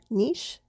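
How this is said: The word is said the British way.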